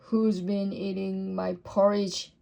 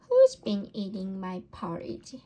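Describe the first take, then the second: First: It is said in a deep, gruff voice. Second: It is said in a medium, ordinary voice. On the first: A big father bear is speaking. "in his great gruff voice" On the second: A middle-sized mother bear is speaking. "in her middle-sized voice"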